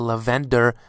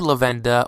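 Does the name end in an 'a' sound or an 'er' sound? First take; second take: er sound; a sound. First: The name ends in an 'er' sound. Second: The name ends in an open 'a' sound. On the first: This is the form many other people use. "as many people tend to pronounce him now" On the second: This is the speaker's own preferred form. "I call him Lavenda"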